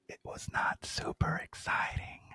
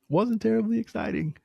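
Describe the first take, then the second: First: It is said very quietly. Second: It is said at normal volume.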